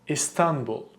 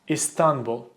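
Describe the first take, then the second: Both takes have the same delivery.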